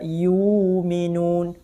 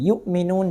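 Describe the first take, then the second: First: A long u vowel replaces the glottal stop. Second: A glottal stop is heard before the m.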